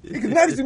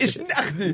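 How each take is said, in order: First: Much higher put-on voice; higher quoted reply. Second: High put-on voice; quoted reply. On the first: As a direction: push it way up high. Quoting Jaime again, higher. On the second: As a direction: raise the pitch for the quote. Quoting Jaime's reply.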